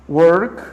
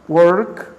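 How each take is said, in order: The two takes are said the same way.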